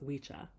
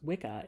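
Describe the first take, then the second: First: It uses the old Saxon pronunciation. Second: It uses the common modern pronunciation. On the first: The speaker calls it right. "as it would have been pronounced by the Saxons" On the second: The speaker calls it wrong. "often pronounced Wicca"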